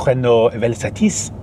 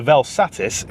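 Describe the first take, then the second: First: Slow, mock-French pronunciation with throaty R; French accent. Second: Said in the usual way. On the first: Shown as a demonstration. Car vlogger demonstrating how the French might say the name, French accent. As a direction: put on a French accent, drawn out. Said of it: "I'll do the accent". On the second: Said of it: "what it sounds like in Northern".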